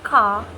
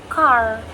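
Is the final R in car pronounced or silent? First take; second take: silent; pronounced. First: The final R sound is silent. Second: The final R sound is clearly pronounced. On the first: "car sounds more like ka" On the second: "In American English, the R is pronounced clearly in words like car"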